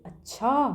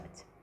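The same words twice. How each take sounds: First: The word is somewhat drawn out, sounding doubtful. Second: The word is said short and relaxed, sounding accepting. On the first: Something does not seem right; there is objection. "थोड़ा सा ज़्यादा समय लेकर के बोला है ना।" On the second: It signals acceptance. "यहाँ हम आराम से एक स्वीकृति की भावना के"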